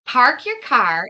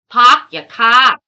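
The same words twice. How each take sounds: First: Said in the usual way. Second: Loud, slow Boston "pahk ya cah"; attempted Boston accent. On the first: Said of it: "is sort of how I would say it". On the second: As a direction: drop the r's, Boston style, punched loud. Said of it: "say it like they would say it".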